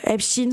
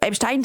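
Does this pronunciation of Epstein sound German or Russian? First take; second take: Russian; German. First: The name is pronounced in a Russian-sounding way. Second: The name is pronounced in a German-sounding way. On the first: "ça fait russe" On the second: "ça fait allemand"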